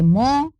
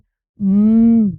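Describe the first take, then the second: First: The m is followed by an oh vowel. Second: The m is a bare hum with no vowel. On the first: A speaker's mother tongue adds a vowel to the sound. The speaker calls it wrong. "in Bengali, they'll say mo" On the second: This is the English sound, with nothing added. The speaker calls it right. "English में sound है mm"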